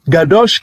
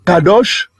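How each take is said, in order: First: The word begins with a hard G sound. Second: The word begins with a hard K sound.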